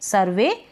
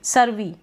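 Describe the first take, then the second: First: The final vowel sounds like a long 'ay'. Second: The final vowel sounds like 'ee'. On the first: The speaker calls it right. "ई वाई को पढ़ा ए" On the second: The speaker calls it wrong. "सर और वी"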